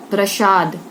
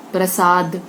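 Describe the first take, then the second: First: प्रसाद said as prashad with sh; प्रसाद mispronounced as prashad; wrong sh sound. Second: प्रसाद said with a clean s; प्रसाद said correctly as prasad; correct s sound. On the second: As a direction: say प्रसाद with a dental s. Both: Shown as a demonstration.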